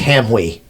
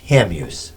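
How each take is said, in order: First: The final s sound is dropped. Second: The final s sound is pronounced. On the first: This is a French Canadian pronunciation. "It's French Canadian" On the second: This is the local American pronunciation. "That's how we pronounce it in this country"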